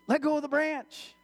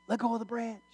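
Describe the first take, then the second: First: Higher, sustained call from above; insistent heavenly voice. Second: Higher, restrained voice of God; voice from heaven. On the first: God answers the frantic man on the cliff, insistent call. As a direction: repeat God's order, pitched up and projected. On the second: God answers the man on the cliff, even heavenly voice. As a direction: play God's voice, steady and held back. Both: Acted. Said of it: "he hears this voice".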